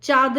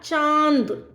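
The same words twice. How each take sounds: First: चाँद said without the nasalised vowel; wrong pronunciation. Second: चांद drawn out with a nasal vowel; nasalised vowel. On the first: Teacher shows students what to avoid, un-nasalised चाँद. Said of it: "नहीं कहेंगे आप". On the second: Teacher gives students correct take, long nasal चांद. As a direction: sound चांद from nose and throat. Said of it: "नाक और गले दोनों से उच्चारित". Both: Shown as a demonstration.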